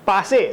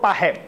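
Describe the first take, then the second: First: The middle consonant is an s sound. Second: The middle consonant is an h sound. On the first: This is the standard pronunciation. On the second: This is the Charotari dialect pronunciation.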